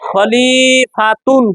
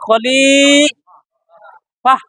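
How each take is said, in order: First: The word ends with a full 'tun' sound. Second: The word ends with a breathy 'h' sound. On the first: "লেখা আছে তা দুই পেশ তুন" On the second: "এই জায়গায় শ্বাস ছাড়লে তখন হবে"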